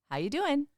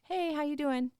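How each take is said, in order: First: It is said with more emphasis and energy. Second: It is said plainly, without extra emphasis.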